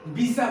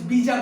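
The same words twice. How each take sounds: First: बीसा with an s, "bee-saa"; pronunciation shown. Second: बीजा with a j, "bee-jaa"; pronunciation shown. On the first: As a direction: say बीसा with a hissed s in the middle. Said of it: "बीसा बोल रहे हैं". (बीसा में "स" की आवाज़) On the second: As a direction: say बीजा with a voiced j in the middle. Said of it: "means बीजा बोल रहे हैं". (बीजा में "ज" की आवाज़) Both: Shown as a demonstration.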